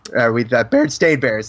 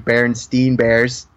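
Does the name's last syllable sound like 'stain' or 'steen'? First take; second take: stain; steen. First: The name ends with a 'stain' sound. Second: The name ends with a 'steen' sound. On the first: The speaker calls it right. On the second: The speaker calls it wrong. "I still say it wrong"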